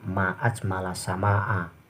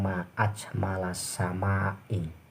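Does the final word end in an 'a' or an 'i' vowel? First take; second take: a; i. First: The last word ends with an open 'a' vowel. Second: The last word ends with an 'i' vowel. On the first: It exclaims how beautiful the sky is. The speaker calls it right. "mulutnya dibuka" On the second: It asks what makes the sky beautiful. The speaker calls it wrong. "jangan bilang"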